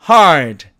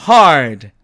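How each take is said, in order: No difference in how they are said.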